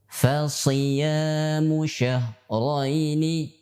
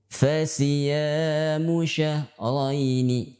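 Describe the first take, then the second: First: The s is heavy, said as sad. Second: The s is light, said as sin. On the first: The speaker calls it right. "harus dengan shad" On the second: The speaker calls it wrong. "tidak boleh"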